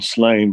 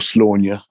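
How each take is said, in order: First: The name is said the plain English way. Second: The name is said the Irish way. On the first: The speaker calls it wrong. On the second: The speaker calls it right.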